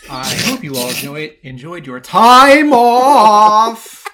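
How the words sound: Several words get heavy, exaggerated emphasis. The speaker calls it right. "It goes like this"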